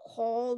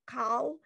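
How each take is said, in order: First: The vowel is pronounced as o. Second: The vowel is pronounced as ah. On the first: The speaker calls it right. "it's pronounced um o, not ah" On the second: The speaker calls it wrong. "not ah"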